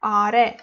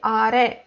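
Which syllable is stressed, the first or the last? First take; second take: last; last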